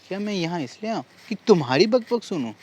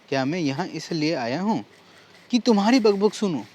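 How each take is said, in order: First: The stress is on तुम्हारी. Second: The stress is on क्या.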